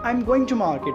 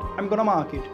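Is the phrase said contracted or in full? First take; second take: full; contracted. First: Going to is said fully as two words. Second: Going to is merged into one short word.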